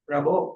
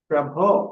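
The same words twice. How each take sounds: First: The middle consonant is said without aspiration. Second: The middle consonant is said with aspiration. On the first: The speaker calls it wrong. "ప్రభో అని పలకకూడదు" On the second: The speaker calls it right. "ప్రభో అని పలకడానికి"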